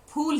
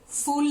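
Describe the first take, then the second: First: It begins with a breathy p sound. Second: It begins with an f sound, like fool. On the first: It means flower. The speaker calls it right. "ऐसे फूल है" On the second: It means a foolish person. The speaker calls it wrong. "फूल नहीं है, फूल का मतलब मूर्ख हो जाएगा, F double O L"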